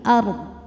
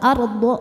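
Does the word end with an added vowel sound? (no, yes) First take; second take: no; yes. First: The word ends on a consonant, without a bounce. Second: The word ends with an added 'o' vowel. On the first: The speaker calls it right. "tapi ard" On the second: The speaker calls it wrong. "Jadi bukan arde atau ardo"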